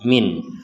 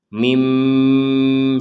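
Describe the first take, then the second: First: The word ends in a clear n sound. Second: The word ends in a nasalized m sound. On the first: The speaker calls it wrong. "Kalau dibaca jelas menjadi min" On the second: The speaker calls it right. "dibaca seperti mengucapkan huruf mim"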